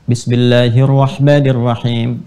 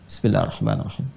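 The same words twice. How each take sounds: First: It is said aloud in a clear voice. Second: It is said quietly, almost silently.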